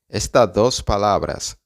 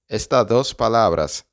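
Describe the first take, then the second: No difference in how they are said.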